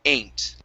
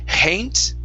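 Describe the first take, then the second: First: The word starts directly with the vowel. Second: The word starts with an H sound. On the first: The speaker calls it right. "only pronounce the vowel, remove the H" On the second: The speaker calls it wrong. "instead of hain't"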